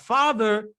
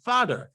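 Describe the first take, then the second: First: The middle consonant is a th sound. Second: The middle consonant is a d sound. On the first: "instead of" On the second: "it became"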